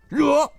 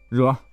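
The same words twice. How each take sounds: First: It is said in a brisk, willing tone. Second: It is said in a grudging, unwilling tone. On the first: The order is accepted and will be carried out. "就是得令，就是保证完成任务" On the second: The task is accepted unwillingly. "就是你接了个活当时不太愿意"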